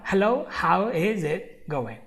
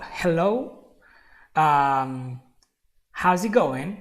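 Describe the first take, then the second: First: Said in the usual way. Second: Stumbling hello with a filler um in the middle; hesitant greeting. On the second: Shown as a demonstration. Halting greeting to a new friend, hesitant.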